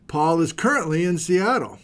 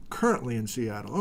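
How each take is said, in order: First: Said in the usual way. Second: Softer, lower echo of the line; murmured aside while reading; quiet repeat. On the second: Real, not acted. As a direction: repeat it half to yourself. Repeats the location to himself.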